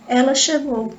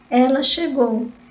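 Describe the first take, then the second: First: It is said as a plain statement. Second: It is said with discouragement.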